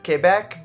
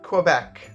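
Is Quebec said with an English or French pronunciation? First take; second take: French; English. First: It is said with a French pronunciation. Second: It is said with an English pronunciation. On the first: "the proper French pronunciation of this word is Quebec" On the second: "in my dialect of Canadian English, we just don't say it that way"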